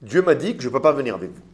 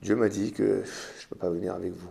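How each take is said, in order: First: It sounds firm and decided. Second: It sounds regretful and longing.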